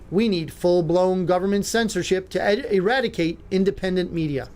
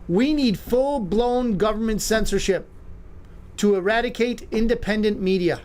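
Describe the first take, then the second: First: It is said at a normal speed. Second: It is said more slowly.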